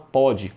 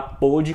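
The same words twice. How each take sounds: First: "pode" with a wide open "ó". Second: "pôde" with a closed, rounded "o". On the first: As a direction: say "pode" with the open present-tense O. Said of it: "e no presente você fala". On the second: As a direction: say "pôde" with the O of the past tense, closed. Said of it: "você vai falar pôde com acento circunflexo". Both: Shown as a demonstration.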